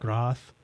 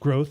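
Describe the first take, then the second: First: It sounds like 'groth', without the 'growth' sound. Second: It sounds like the English word 'growth'. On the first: The speaker calls it wrong. "not groth" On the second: The speaker calls it right. "it's growth"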